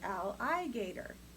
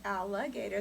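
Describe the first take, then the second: First: The vowel after 'all' is a clear 'i'. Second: The vowel after 'all' is reduced and unclear. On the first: "they'd say alligator" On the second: "instead of alligator"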